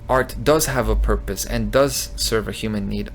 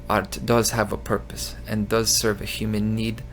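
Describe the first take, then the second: First: It is read in the speaker's ordinary voice. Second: It is read in an imitated put-on voice.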